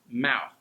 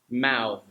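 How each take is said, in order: First: The final th sound is voiceless. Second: The final th sound is voiced. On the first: It is used as a noun. "The T H sound that's non-voiced is used with all the nouns" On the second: It is used as a verb. "the voiced one with your vocal cords, the, is used with all the verbs"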